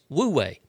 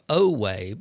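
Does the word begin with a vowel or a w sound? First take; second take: w sound; vowel. First: The word begins with a w sound. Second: The word begins with a plain vowel sound. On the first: "In several places, it's Wu-Wei" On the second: "One actually said it's pronounced O-O-O-way"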